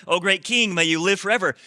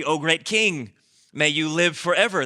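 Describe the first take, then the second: First: Higher, louder flattering plea to the king; flattering wise men. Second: Lightly voiced humble courtiers bowing to the king; a hint of humble deference, offered up; humble wise men. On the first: Retold or imitated. Preacher repeating the wise men's greeting, hammed-up flattering. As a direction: lay the flattery on thicker this time. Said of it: "if you're ever in front of a tyrant". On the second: Preacher voicing wise men greeting the tyrant, mildly humble. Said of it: "with a lot of humility".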